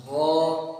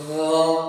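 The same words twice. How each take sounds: First: غا voiced and smooth, rasp removed; correct ghain. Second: غا with a scratchy throat rasp; wrong ghain. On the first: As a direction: keep the voice in غا without the scratch. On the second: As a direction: push غا out with a gritty catch. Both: Shown as a demonstration. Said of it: "اس میں جو خارش کی آواز نا، وہ ختم کرنے".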